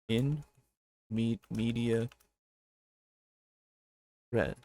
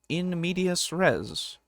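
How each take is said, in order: First: The middle word ends without an s sound. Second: The middle word ends with an s sound. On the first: The speaker calls it wrong. "I've been saying it" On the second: The speaker calls it right. "it's actually"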